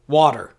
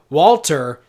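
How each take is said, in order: First: The L sound is softened away. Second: The L sound is clearly pronounced. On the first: This is how the name was said in Elizabethan times. "it would be pronounced water" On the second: This is how the name is said today. "instead of uh, Walter"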